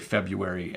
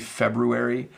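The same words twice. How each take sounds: First: The first R sound is left out. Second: The first R sound is pronounced. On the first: "the most common where we say February and you don't hear the R" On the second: "It's technically February"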